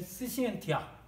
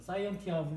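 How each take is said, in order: First: The word is said with a Latin pronunciation. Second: The word is read in a casual, non-Latin way. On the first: "라틴어 발음으로는" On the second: "이렇게 읽어도 될 것 같은데"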